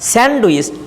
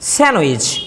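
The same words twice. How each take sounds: First: The d sound is clearly pronounced. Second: The d sound is left out. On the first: "ডটা শোনা যায়" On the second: "ডিটাকে উচ্চারণ না করলে এটা হয়ে যায়"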